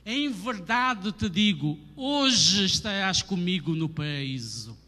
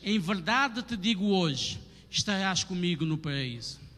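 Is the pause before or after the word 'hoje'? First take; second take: before; after. First: The pause comes before the word hoje. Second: The pause comes after the word hoje.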